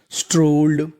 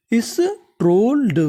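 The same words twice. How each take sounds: First: Said in the usual way. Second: Slow, higher स्ट्रोल्ड; slow demo reading. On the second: Shown as a demonstration. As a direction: stretch out स्ट्रोल्ड, pitch up then falling. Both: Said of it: "तो पूरी meaning".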